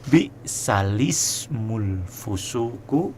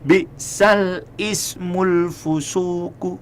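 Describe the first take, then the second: First: The lam takes an i and links into 'smul'. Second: The lam closes, then 'ismul' starts separately. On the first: The speaker calls it right. "Yang benar adalah" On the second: The speaker calls it wrong.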